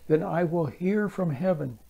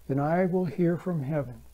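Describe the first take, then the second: The two takes are said the same way.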